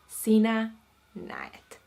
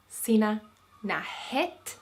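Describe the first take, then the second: First: No h sound is heard inside the verb. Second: An h sound is heard inside the verb. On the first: The speaker calls it right. "the H turns into an E" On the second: The speaker calls it wrong. "we don't want to say it like that"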